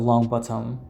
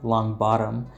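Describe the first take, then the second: First: The middle consonant of bottom is a clear t. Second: The middle consonant of bottom sounds like d. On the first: "with a t" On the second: "like an American with a duh"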